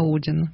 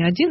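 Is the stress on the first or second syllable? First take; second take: first; second. First: The stress is on the first syllable. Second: The stress is on the second syllable. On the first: It sounds like a mythological name. "почему ударение на первый слог?" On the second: It means the number one. "это вот не «Один»"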